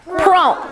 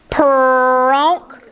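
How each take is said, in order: First: Said in the usual way. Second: Peronk drawn out slowly; stretched word. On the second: Shown as a demonstration. Teacher stretching a word for pupils. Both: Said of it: "we're gonna stretch these words".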